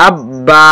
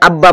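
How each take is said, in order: First: আব বা with a long আ on বা; lengthened vowel. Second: আব্বা with a short final আ; unlengthened vowel. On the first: Teacher showing the madd letter, আব বা with lengthened ending. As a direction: draw out the final বা of আব বা. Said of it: "এখানে লম্বা করতে হবে". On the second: Teacher showing students the mistake, আব্বা with short ending. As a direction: cut the বা of আব্বা short, no stretching. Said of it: "যদি আপনি লম্বার জায়গায় আব্বা বলে ফেলেন". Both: Shown as a demonstration.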